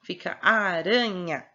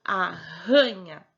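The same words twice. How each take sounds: First: Aranha with a single tapped r; word said slowly. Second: Arranha with a guttural rolled rr; double R shown. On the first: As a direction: aranha said slowly, the r a light tap between the vowels. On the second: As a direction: arranha said very slowly, the rr a strong throaty h sound. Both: Shown as a demonstration. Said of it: "quando é R R entre as vogais".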